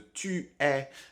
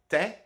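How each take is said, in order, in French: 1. Le pronom se prononce en entier, comme une syllabe. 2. Le pronom est raccourci à une seule consonne. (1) "à la place de tu es" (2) "je dirais plutôt t'es"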